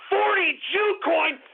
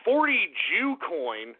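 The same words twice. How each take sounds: First: Outraged. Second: Said in the usual way. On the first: Acted. Same name, shouted in outrage.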